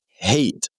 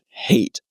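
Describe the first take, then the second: First: The h at the start is said normally. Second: The h at the start is strongly breathed.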